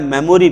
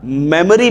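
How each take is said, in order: First: मेमोरी with a full "o", "me-mo-ree"; common mispronunciation. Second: मेमोरी as "MEM-uh-ree", weak middle vowel; correct pronunciation. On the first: Teacher showing what people wrongly say, मेमोरी as "me-mo-ree". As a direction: say मेमोरी with a rounded middle vowel, "memoree". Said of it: "मेमोरी बोलते हैं हम लोग". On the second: Teacher modelling proper English for pupils, मेमोरी as "MEM-uh-ree". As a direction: say मेमोरी with a short unrounded middle, "memuree". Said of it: "मेमोरी बोला जाता है". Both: Shown as a demonstration.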